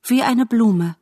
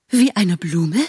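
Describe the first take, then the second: First: Said in the usual way. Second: Affronted question, Wie eine Blume with a rise; a vain butterfly offended by the comparison; indignant echo. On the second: Acted. (gekränkt fragend: Wie eine Blume?)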